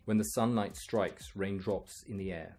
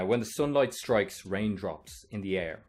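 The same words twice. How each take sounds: First: It is spoken in a British accent. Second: It is spoken in an Irish accent. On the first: "now I'll try British" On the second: "I'll read it in my own uh, Irish accent"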